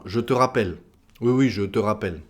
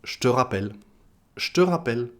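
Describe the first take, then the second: First: "je te rappelle" with je and te in full; every e sounded. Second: "je te" squeezed into "ch'te"; swallowed e. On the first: Teacher giving the full form, "je te" fully sounded. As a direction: say "je te rappelle" with both e kept. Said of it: "D'autres exemples encore". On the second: Teacher showing spoken French, "je te" said "ch'te". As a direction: say "je te rappelle" as "ch'te rappelle". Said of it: "on va le manger le e". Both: Shown as a demonstration.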